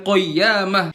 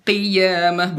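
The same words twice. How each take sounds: First: "qiyamah" dengan qaf ringan seperti kaf; qaf tipis salah. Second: "Qiyamah" dengan qaf tebal dari lidah belakang; qaf tebal benar. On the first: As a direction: ucapkan "qiyamah" enteng, salah. ("qiyamah" qaf enteng) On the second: ("Qiyamah" qaf tebal) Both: Shown as a demonstration. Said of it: "bukan qiyamah".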